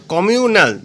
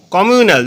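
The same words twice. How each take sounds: First: "communal" drawn out as komiu, nal; slight break inside "communal" before nal; split into syllables. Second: Said in the usual way. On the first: Shown as a demonstration. Teacher showing the syllables, "communal" said in separate parts. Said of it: "দুটো syllable রয়েছে". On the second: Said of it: "communal দুটো syllable রয়েছে".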